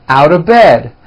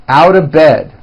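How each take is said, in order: Both takes have the same delivery.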